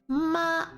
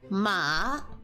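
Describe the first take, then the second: First: The pitch stays high and level. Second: The pitch rises from middle to high. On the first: "first tone flat" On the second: "going up"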